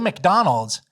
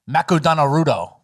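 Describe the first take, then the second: First: It is said with plain English pronunciation. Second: It is sounded out in Japanese syllables.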